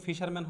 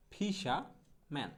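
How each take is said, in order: First: Said in the usual way. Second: ফিশাম্যান split slowly as "fi-sha... man", no r; slow model pronunciation. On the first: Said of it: "ফিশারম্যান হবে না". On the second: Shown as a demonstration. Teacher modelling fisherman for learners, slow r-less ফিশাম্যান. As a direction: stretch ফিশাম্যান and leave out the middle r. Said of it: "উচ্চারণটা হবে হচ্ছে এরকম".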